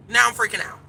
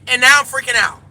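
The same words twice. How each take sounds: First: Said in the usual way. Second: Louder take. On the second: Shown as a demonstration.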